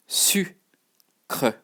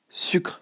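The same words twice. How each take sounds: First: "Sucre" split slowly into su and cre; syllable by syllable. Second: "Sucre" in one short syllable, final e dropped; joined-up French pronunciation. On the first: French teacher showing learners how to pronounce it, broken into syllables. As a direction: sound out "Sucre" in two separate parts. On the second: French teacher showing learners how to pronounce it, said as one word. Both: Shown as a demonstration. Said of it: "how to pronounce it".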